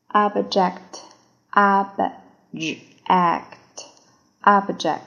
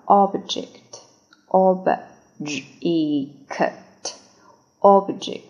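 First: "object" as "AHB-jekt", drawn out slowly; first pronunciation. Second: "object" as "AWB-jikt", sounded out slowly; second pronunciation. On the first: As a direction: say "object" slowly with open "ah" and clear "e". ("object"第一种读法，慢速，o读作“啊”，e读清晰) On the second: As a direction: say "object" slowly with rounded "o" and short "i". ("object"第二种读法，慢速，o读圆唇音，e读作短i) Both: Shown as a demonstration. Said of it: "第二种读法".

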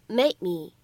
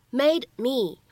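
First: "made me" with the d held unreleased; incomplete plosion. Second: Said in the usual way. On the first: Shown as a demonstration. Teacher showing learners "made me" with an unreleased d. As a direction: stop the d of "made" and slide into "me". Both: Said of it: "可以有一个不完全爆破的处理".

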